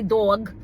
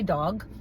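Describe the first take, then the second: First: It is said in a strong New York accent. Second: It is said in a softened, neutral accent. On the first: This is how the speaker naturally wants to say it. "I want to say dog" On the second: This is how the speaker says it now. "but I, I say dog"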